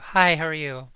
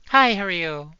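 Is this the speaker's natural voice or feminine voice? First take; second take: natural; feminine. First: It is said in her natural voice. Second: It is said in her feminine voice.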